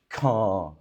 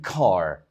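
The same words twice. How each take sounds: First: It is said in a British accent. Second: It is said in an American accent. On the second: "American version"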